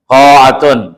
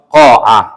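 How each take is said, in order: First: The ending is said with a t sound. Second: The ending is said with an h sound. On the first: The word is read in connected speech. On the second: The word is read at a pause.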